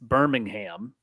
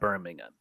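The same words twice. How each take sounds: First: The name is said the American way. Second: The name is said the British way. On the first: It names the American city. The speaker calls it right. "It's Birmingham" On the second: It names the city in England. The speaker calls it wrong. "It's not Birmingham. Birmingham is across the pond"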